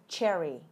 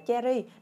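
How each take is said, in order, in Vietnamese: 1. Nó được phát âm với âm đầu ch kiểu tiếng Anh. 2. Nó được phát âm với âm đầu kiểu tiếng Việt. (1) "Ch âm ch ở đầu nha" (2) "Đừng đọc là cherry. Nói chung nói tiếng Việt với nhau hiểu cherry thì hiểu"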